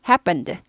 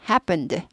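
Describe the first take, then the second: Both takes have the same delivery.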